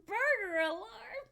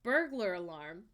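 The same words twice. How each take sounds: First: "burger" with no L, said slowly and high; misheard burger alarm. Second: "Burglar" said slowly with the full L and both syllables; correct burglar alarm. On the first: Laughing at a viewer's misheard word, slow and high. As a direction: drag out the funny "burger alarm". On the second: Correcting a Scottish viewer's mishearing, slow and careful. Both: Shown as a demonstration. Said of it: "Someone Scottish tried to say burger alarm".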